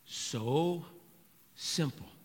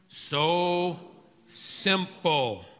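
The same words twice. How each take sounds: First: It is said at normal, quieter volume. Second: It is said louder.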